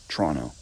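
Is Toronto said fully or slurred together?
slurred. The syllables are slurred together into fewer sounds. "They say Toronto. Because they do that little slur thing"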